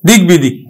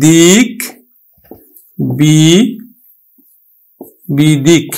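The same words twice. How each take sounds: First: Said in the usual way. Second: দিক, then বি-, then বিদিক, each pulled apart with long pauses; syllable by syllable. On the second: Shown as a demonstration. Teacher spelling out দিক বিদিক for students, slowly. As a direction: break দিক বিদিক into slow separate pieces. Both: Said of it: "আমরা উচ্চারণ করি কিন্তু".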